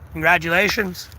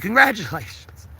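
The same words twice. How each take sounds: First: It sounds dismissive and sarcastic. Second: It sounds warm and sincere. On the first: The good news does not really matter to the listener. The speaker calls it wrong. "I don't know why I said it that way. ... I am such a dick sometimes" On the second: The listener is genuinely happy for the person. The speaker calls it right. "No, but seriously"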